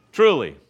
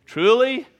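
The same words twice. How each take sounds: First: Truly falling and firm; loud truly dropping to a finish; settling amen. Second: Rising, lifted truly; Truly sung upward like an announcement; emphatic amen. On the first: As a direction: land truly with a falling close. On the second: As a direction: call out Truly with a rise, higher and louder. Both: Shown as a demonstration. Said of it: "where Jesus uses the word amen".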